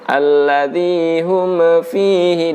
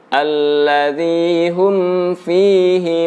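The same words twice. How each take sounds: First: The lips open on the m, making a bounce. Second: The lips stay closed on the m until f. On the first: The speaker calls it wrong. "akan terjadi pantulan atau qalqalah ... ini harus dihindari" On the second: The speaker calls it right. "Saya ulang lagi"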